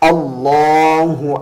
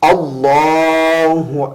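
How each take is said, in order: No difference in how they are said.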